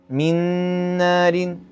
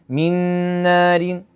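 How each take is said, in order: Both takes have the same delivery.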